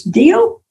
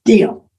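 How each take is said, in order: First: Offered deal, rising and higher; Deal? pitched up as an offer; questioning deal. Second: Flat falling Deal. to agree; accepting deal. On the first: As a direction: mentor proposing a bargain, questioning rise. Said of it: "He says". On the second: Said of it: "And I say". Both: Retold or imitated.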